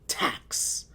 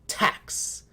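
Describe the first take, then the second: Both takes have the same delivery.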